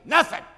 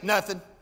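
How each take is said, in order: First: The word is said harshly, with strong annoyance. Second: The word is said mildly, without much force. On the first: Something is seriously wrong. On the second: Nothing much seems to be wrong.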